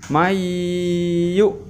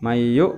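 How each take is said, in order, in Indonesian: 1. Bunyi sengau itu ditahan lama. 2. Bunyi sengau itu diucapkan cepat. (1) "Jadi bacanya harus agak lama, ya, ditahan e, leburannya tadi. Mayu gitu" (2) "Jadi nggak boleh cepat. Mayu nggak boleh"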